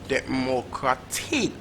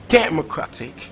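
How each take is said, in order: First: The stress is on the fourth syllable. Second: The stress is on the first syllable. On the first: "Or is it last syllable" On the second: "So is it first syllable?"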